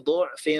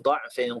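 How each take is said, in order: First: The first vowel is a 'u' sound. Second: The first vowel is an 'a' sound.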